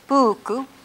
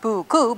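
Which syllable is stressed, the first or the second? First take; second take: first; second. First: The stress is on the first syllable. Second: The stress is on the second syllable. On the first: The speaker calls it right. "you stress or accent the first syllable of the word" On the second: The speaker calls it wrong. "not buku"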